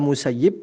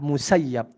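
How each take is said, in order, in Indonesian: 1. Vokal sebelum b terakhir adalah 'i'. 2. Vokal sebelum b terakhir adalah 'a'. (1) "bisa dibaca Musayyib" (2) "Harus dibaca fathah"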